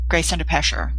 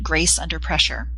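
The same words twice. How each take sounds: First: It is rushed and slurred with little lip movement. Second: Every sound is clearly and crisply formed. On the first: The speaker calls it wrong. "I barely moved my lips. I sort of sped through it, and I was sort of sloshy sounding" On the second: The speaker calls it right. "That's articulate"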